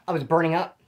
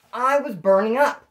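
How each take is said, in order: First: Said in the usual way. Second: "burning up" drawn out slowly, a bit higher; slow down and lean on "burning up"; emphatic repeat. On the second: Real, not acted.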